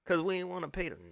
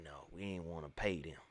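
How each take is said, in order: First: Said in the usual way. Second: Muttered aside. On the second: Acted. Repeated much lower, softer.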